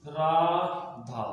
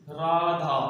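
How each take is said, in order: First: राधा with the final आ drawn out very long; prolonged vowel. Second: Said in the usual way. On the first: Shown as a demonstration. Teacher shows students a pluta vowel, drawing out राधा. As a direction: stretch the last vowel of राधा to three beats. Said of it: "यानी कि जिसे बोलने में समय लग रहा है". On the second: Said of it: "यदि हम एग्जांपल देखें".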